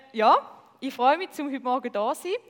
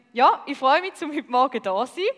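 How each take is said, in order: The two takes are said the same way.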